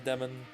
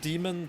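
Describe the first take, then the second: First: The word is said in a shorter, smoother form. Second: The word is said in its full, longer form. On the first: "shorter and more like fluid to say" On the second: "it's actually pronounced demon"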